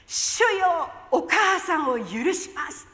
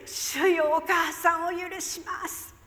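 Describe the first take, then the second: First: Loud cry with a tearful catch, slowing on the forgiveness; a loud, broken cry of forgiveness. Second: Sudden cry. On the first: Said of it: "ものすごく大きな声で". (泣きながら大声で) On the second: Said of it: "いきなりです". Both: Retold or imitated.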